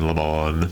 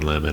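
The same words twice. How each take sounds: First: The name is pronounced in a fancier, unusual way. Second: The name is pronounced in an ordinary, plain way. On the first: "he's trying to sound fancy by calling, you know, pronouncing his name Lemon" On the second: "I call him Don Lemon"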